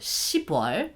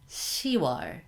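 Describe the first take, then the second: First: A p sound is kept before 'wol'. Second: The p sound is dropped before 'wol'. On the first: The speaker calls it wrong. "the sound is way too strong" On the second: The speaker calls it right. "we change it to soft"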